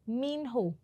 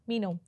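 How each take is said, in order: First: The h sound is clearly pronounced, said slowly. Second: The h sound is dropped, said quickly.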